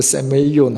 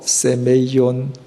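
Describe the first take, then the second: First: Said in the usual way. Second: 세메이온 spelled out slowly, se-me-i-on; teaching the Greek word 세메이온 slowly; careful Greek word. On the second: Shown as a demonstration. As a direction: slowly sound out 세메이온 syllable by syllable. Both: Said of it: "헬라말로".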